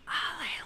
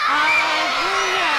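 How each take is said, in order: First: The word is whispered. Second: The word is shouted very loudly.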